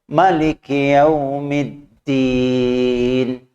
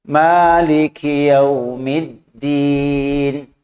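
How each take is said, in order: Both takes have the same delivery.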